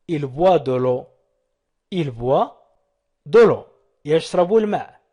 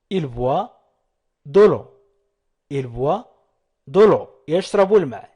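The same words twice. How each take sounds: The two takes are said the same way.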